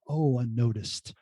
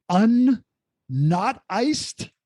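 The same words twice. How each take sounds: First: "Oh, unnoticed" low, soft and slow, as one word; dawning realisation. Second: "un-, not iced" in separate chunks, pitched high; awkwardly split word. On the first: Guest finally gets the show's name, "unnoticed" as one word in slow realisation. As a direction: let "unnoticed" sink in, dropped and drawn out. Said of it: "and then you, I was like". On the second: Guest teases host over the show's name, "un-, not iced" awkwardly split. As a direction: break it after "un", then a raised "not iced". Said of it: "calling it very awkwardly". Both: Shown as a demonstration.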